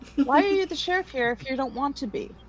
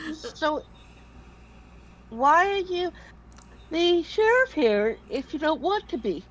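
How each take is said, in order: First: It is spoken plainly, without a yawn. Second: It is spoken through a yawn.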